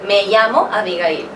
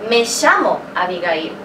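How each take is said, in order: First: Llamo begins with a soft y-like sound. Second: Llamo begins with a strong sh sound. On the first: "that's actually Sp Spain Spanish" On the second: "If I had to say it in Argentine Spanish"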